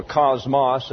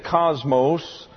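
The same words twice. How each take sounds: First: Cosmos as KOZ-moss, short final vowel; chosen Greek pronunciation. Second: Cosmos with a long final O, KOZ-mohss; English pronunciation. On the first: Teacher correcting to the class's pronunciation, Greek-style KAHZ-mahs for cosmos. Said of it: "as we will pronounce it". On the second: Teacher reading the commentary's word, English-style KAHZ-mohs for cosmos. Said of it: "or cosmos as we will pronounce it". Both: Shown as a demonstration.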